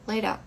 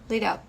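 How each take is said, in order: First: The t becomes a quick r-like flap. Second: The t becomes a quick r-like flap.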